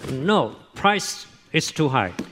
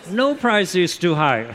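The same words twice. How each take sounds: First: There is a pause after "no". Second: It runs on without a pause after "no".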